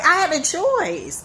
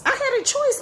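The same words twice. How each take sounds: First: Said in the usual way. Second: I had a choice, with choice leaping way up high; much higher repeat. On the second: Shown as a demonstration.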